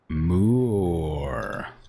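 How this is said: It is stretched and emphasized like a moo.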